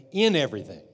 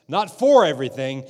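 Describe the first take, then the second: First: "in" stressed at the start of "in everything"; firm stress on "in" before "everything". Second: "for" punched louder in "Not for everything"; louder, stressed "for" in "Not for everything". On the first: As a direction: lean on the word "in". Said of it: "he said in everything". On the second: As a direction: hit the word "for" hard. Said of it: "He didn't say for everything". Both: Shown as a demonstration.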